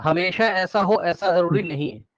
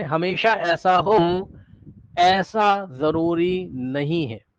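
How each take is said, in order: First: Said in the usual way. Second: Drawn-out, word-by-word delivery; slow emphatic repeat. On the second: Real, not acted. Teacher spelling out a caveat to students, slow and deliberate. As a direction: stretch each word out very slowly.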